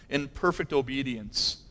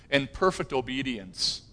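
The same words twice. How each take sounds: The two takes are said the same way.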